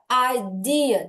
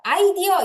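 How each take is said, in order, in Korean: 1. 강세는 두 번째 음절에 있어요. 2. 강세는 첫 번째 음절에 있어요. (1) "드 여기 강세가 있어요" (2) "이게 아니라"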